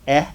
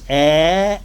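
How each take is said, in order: First: The vowel is cut short. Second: The vowel is held long. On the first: "or it may be short" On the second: "That vowel sound in Arabic may be long"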